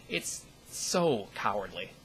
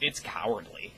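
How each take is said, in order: First: "so" drawn out slowly for emphasis; stress on SO. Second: Said in the usual way. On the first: Real, not acted. Vlogger condemning anon hate, stress on "so". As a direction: lean hard and long on "so".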